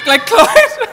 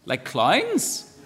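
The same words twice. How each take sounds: First: "Like clowns?" in a very high, loud, amazed squeal; incredulous squeak. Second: Said in the usual way. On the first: Real, not acted. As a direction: squeal it back in amused disbelief. Incredulous repeat of answer.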